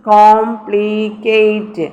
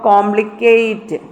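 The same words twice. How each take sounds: First: complicate very slowly, in three drawn-out syllables. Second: Said in the usual way. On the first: Shown as a demonstration. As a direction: stretch and separate each syllable of complicate. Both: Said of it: "കേറ്റ് എന്നുള്ള ഒരു syllable".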